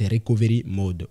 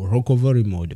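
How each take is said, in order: First: It is pronounced with French-style sounds. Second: It is pronounced with English-style sounds.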